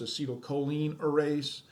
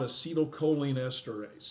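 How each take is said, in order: First: The last word is said as 'erase'. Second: The last word is said as 'esterase'.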